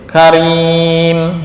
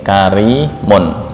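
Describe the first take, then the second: First: The word stops on a bare final m. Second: The word ends with the full -un sound. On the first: "ini semuanya dibuang, diganti sukun di mim" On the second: "kari mun"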